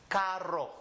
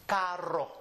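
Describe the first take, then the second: No difference in how they are said.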